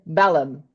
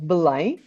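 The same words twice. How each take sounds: First: Belém said the English way, stress on the first syllable; English pronunciation. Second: Belém said the Portuguese way, stress on the last syllable; Portuguese pronunciation. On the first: Guide showing travelers the English name, anglicized Belém. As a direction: say Belém as an English speaker would, like "Bellum". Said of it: "in English you say". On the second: Guide showing travelers the local name, Belém pronounced in Portuguese. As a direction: say Belém as in Portugal, first vowel swallowed, nasal ending. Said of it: "in Portuguese we say".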